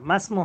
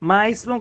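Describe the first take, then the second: First: The 'i' vowel drops and 'm' joins 's'. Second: A separate 'i' vowel is heard after 'ma'. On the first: It sounds natural and concise. The speaker calls it right. "এটা উধাও হয়ে যায়। মিমটা সরাসরি সিনকে ধরবে" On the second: It sounds clumsy and people would laugh. The speaker calls it wrong. "মা ইসমু কখনো হবে না- হবে না"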